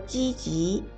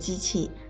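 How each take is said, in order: First: The second syllable is unaspirated with a rising tone. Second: The second syllable is aspirated with a falling tone. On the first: The speaker calls it right. "积极的极，声母是鸡，二声" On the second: The speaker calls it wrong. "不应该念积极"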